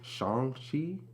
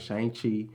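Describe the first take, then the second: First: The name is said in a non-American way. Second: The name is said in an American way. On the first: "is it" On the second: "us as Negroes, Americans, whatever, we'd be like"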